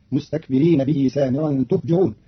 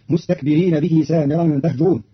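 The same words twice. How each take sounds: First: تهجرون said "tuhjirun", u on ta and i on jim; تهجرون بضم التاء وكسر الجيم. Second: Said in the usual way. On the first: Shown as a demonstration. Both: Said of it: "بضم التاء وكسر الجيم".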